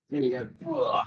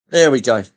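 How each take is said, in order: First: Said in the usual way. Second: Much louder burst; loud exclaimed repeat; sudden loud. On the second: Real, not acted. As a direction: blurt it out loud. Says it twice, second loud.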